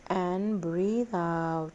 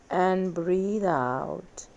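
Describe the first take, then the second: No difference in how they are said.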